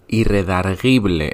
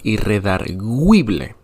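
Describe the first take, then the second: First: The u after the g is silent. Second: The u after the g is pronounced. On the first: The speaker calls it wrong. "no es irredarguible" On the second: The speaker calls it right. "es irredarguible, aunque suene terrible"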